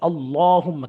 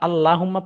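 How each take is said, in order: First: The L is pronounced heavy and full. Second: The L is pronounced thin and light. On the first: The speaker calls it right. "লামের আগে জবর আছে।" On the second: The speaker calls it wrong. "তাহলে ভুল হবে"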